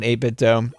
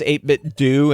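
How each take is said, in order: First: The last syllable rhymes with 'go'. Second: The last syllable rhymes with 'zoo'. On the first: "and not eight-bit dough" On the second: "it's pronounced do, like Scooby-Doo"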